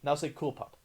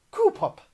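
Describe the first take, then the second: First: Said in the usual way. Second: Very high, loud cartoon voice; hammed-up high squeal on "Cool"; shitty Stewie impression. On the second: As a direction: badly imitate a cartoon character, punching "Cool". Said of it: "my very shitty Stewie impression".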